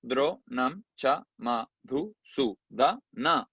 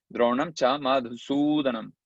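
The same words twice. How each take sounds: First: "Dro, nam, cha, ma, dhu, su, da, na" with a gap after each syllable; each syllable of "Dro, nam, cha, ma, dhu, su, da, na" detached. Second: Measured Sanskrit recitation; verse recitation. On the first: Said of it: "Ahí están las ocho". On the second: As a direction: recite it as one connected metrical line. Recites verse before counting it. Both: Shown as a demonstration.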